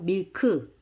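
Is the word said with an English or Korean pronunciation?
Korean. It is said as two Korean syllables. "이건 한국식으로 읽은 겁니다"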